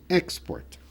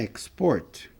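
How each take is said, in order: First: The stress is on the first syllable. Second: The stress is on the second syllable. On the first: It is the noun, an export. "Exportação é export" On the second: It is the verb, to export. "Exportar é export"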